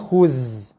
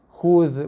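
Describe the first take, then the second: First: The word ends with a buzzing z sound. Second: The word ends with a soft th-like sound. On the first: The speaker calls it wrong. "Bukannya khuz" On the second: The speaker calls it right. "Za nipis je hujung lidah eh"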